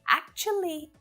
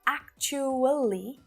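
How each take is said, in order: First: The word is said with three syllables. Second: The word is said with four syllables. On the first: "is way easier with three" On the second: "with four syllables"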